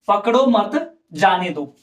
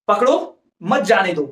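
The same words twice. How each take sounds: First: There is a pause after the word mat. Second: There is a pause after the word pakdo. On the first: Do not catch him; let him go. "यहाँ पर पकड़ो मत, ये comma लगा दिया मैंने" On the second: Catch him; do not let him go. "भाई पकड़ लो, जानी मत दो"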